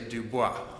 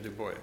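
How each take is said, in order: First: The name is given a French-style pronunciation. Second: The name is given an American-style pronunciation. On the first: The speaker calls it wrong. "If anyone has taken French, I know you want to say Du Bois" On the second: The speaker calls it right. "it's the Americanized pronunciation"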